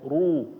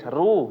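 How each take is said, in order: First: The r is heavy with rounded lips. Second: The r is light and thin. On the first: The speaker calls it right. "kalau yang monyong-monyong ini kedengarannya tebal ya" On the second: The speaker calls it wrong. "Susah kalau misalnya kedengaran tipis"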